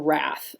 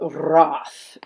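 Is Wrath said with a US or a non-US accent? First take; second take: US; non-US. First: It is said in a US pronunciation. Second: It is said in a non-US pronunciation.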